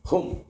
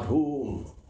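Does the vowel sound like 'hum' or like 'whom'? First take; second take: hum; whom. First: The vowel is short, as in 'hum'. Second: The vowel is long, as in 'whom'. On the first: The speaker calls it right. "Hum it is" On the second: The speaker calls it wrong. "not whom"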